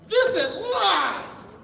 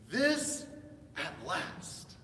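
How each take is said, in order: First: It is said excitedly, with great joy. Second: It is said flatly, without excitement.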